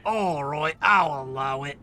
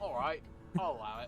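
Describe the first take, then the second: First: Lower, haughty sheriff granting leave; lightly voiced pompous sheriff; Sheriff of Nottingham voice. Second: Lordly villain granting permission; a touch of the haughty sheriff; Sheriff of Nottingham voice. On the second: Acted. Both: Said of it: "That's my Sheriff of Nottingham voice".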